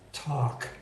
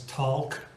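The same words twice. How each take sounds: First: The L is silent. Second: The L is sounded. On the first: The speaker calls it right. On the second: The speaker calls it wrong.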